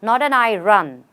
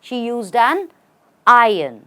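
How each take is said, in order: First: Iron is said with an R, like I run. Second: Iron is said without an R before the end. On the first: The speaker calls it wrong. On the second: The speaker calls it right.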